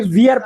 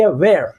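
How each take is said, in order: First: "wear" as VEE-ar; common misreading. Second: "wear" as one-syllable VAIR; correct reading. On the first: Retold or imitated. Teacher quoting how people misread it, "wear" said as vee-ar. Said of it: "यहाँ पर ये wear पढ़ते हैं". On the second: Shown as a demonstration. Teacher correcting the misreading, "wear" said as vair. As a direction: say "wear" with an open e, ver. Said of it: "लेकिन जबकि wear".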